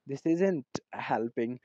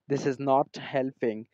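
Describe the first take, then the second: First: "Is not" is contracted into one syllable. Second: "Is not" is said as two full words.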